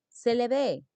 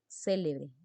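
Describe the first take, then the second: First: The stress is on the last syllable. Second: The stress is on the first syllable. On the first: Someone celebrated in the past. "tiempo pasado" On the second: Someone is famous or important. "Célebre es alguien importante"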